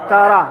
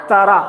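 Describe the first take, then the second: No difference in how they are said.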